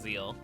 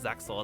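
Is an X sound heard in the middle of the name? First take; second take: no; yes. First: The name is said without an X sound. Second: The name is said with an X sound. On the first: The speaker calls it right. "it's pronounced Zeal, because the X is silent" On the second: The speaker calls it wrong. "it's not pronounced Zexel"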